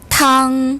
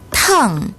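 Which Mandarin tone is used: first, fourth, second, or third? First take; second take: first; fourth. First: The pitch stays high and level. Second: The pitch falls sharply from high. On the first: It means soup. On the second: It means hot.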